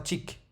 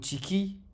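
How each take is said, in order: First: The word stops on k with no vowel. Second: The word ends with an i vowel after k. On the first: The speaker calls it right. "mais ce sera tik" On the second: The speaker calls it wrong. "ou tiki"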